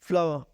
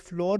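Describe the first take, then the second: First: It is said with an 'ow-er' vowel. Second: It is said with a single 'or' vowel. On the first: The speaker calls it right. "ये होता है फ्लावर" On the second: The speaker calls it wrong. "ये फ्लोर नहीं होता"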